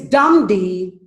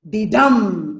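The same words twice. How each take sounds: First: Loud DUMB first, then lighter D; trochaic beat. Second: Light D, loud long DUMB; short D, then land hard on dumb; iambic beat. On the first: Teacher reminds students of the trochee, stressing dumb before D. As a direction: punch dumb and follow with unstressed D. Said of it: "Trochee is dumb D". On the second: Teacher reminds students of the iamb, stressing dumb after D. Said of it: "I am is". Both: Shown as a demonstration.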